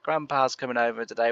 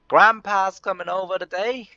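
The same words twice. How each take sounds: First: It is said in a plain natural voice. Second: It is said in an odd put-on voice.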